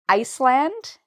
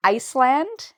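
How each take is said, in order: First: The word is said with an S sound. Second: The word is said with an S sound.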